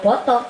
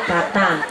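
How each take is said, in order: First: It is said with Pekalongan o vowels. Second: It is said with Cilacap a vowels.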